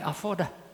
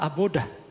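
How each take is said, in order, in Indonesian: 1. Konsonan di tengah adalah bunyi V. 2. Konsonan di tengah adalah bunyi B. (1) "pakai V" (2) "atau suka dibaca abodah"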